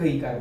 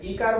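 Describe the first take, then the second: First: The vowel is held longer. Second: The vowel is held briefly. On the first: "દીર્ઘ ઈ કાર બોલ્યા" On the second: "રસ્વ બોયલો"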